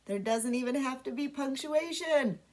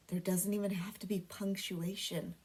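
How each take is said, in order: First: Said in the usual way. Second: Secret whisper to the class. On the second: Shown as a demonstration. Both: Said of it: "And get this, guys".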